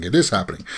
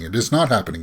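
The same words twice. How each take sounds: First: IS lifted in a seesawing rumour; stress on IS. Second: NOT punched in a seesawing rumour; stress on NOT. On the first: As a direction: put the weight on "is", retelling the comeback. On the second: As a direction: put the weight on "not", retelling the denial. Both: Retold or imitated. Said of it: "people said".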